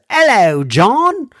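It is said in a put-on English accent.

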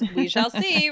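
It is said with a distinctive, marked intonation. The speaker calls it right. "with that intonation too"

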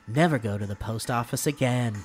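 It is said in an ominous, warning tone. The listener is being cautioned against something.

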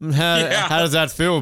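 The voice is made fairly deep. "That's a deep voice"

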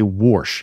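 The word is said with an inserted r sound. "they put R's in random words"

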